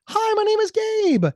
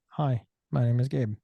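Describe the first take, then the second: First: It sounds happy. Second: It sounds neutral.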